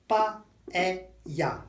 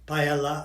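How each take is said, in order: First: The double l is sounded as y. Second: The double l is sounded as l. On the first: The speaker calls it right. "That's how you do it" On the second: The speaker calls it wrong. "It's not paella"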